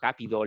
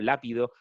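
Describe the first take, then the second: First: The word begins with a g sound. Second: The word begins with an l sound.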